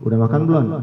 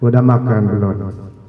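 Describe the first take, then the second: First: It is said with a questioning intonation. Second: It is said flatly, without question intonation. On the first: The speaker calls it right. "Kalau saya tanya misalnya" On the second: The speaker calls it wrong. "Kan bukan orang bertanya seperti itu"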